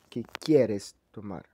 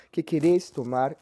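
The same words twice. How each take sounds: First: Quieres stressed on the first syllable, QUIEres, slow and falling; tú form stress. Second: Queres stressed on the last syllable, queRES, slow and deliberate; vos form stress. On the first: Teacher contrasting the tú form for students, stressing QUIEres. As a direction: lean on the start of quieres. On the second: Teacher showing the vos form to students, stressing queRES. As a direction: land the accent on the end of queres. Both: Shown as a demonstration. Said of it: "veja aí a comparação entre vos e tu".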